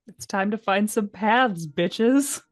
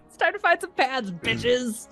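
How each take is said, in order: First: The line is delivered in a subdued, sad way. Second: The line is delivered in an energetic, upbeat way. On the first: The speaker calls it wrong. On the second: The speaker calls it right.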